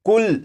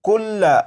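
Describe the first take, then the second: First: The word ends on a stopped 'l' consonant. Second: The word ends with a short 'a' vowel. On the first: "जब इस लफ्ज को वक्फ में पढ़ेंगे ... जबर को नहीं पढ़ेंगे" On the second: "ये लफ्ज लिखा है कुल्ला"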